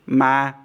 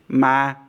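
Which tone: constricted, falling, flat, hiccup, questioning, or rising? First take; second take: flat; flat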